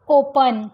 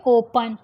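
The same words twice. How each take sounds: First: "ओपन" with a full e in the second syllable; wrong full vowel. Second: "ओपन" with a weak uh in the second syllable; schwa in open. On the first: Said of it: "ओपन नहीं बोलेंगे इसको". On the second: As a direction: say "ओपन" as OH-puhn, light ending. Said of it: "हम बोलेंगे". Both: Shown as a demonstration.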